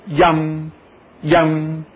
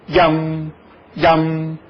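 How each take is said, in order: No difference in how they are said.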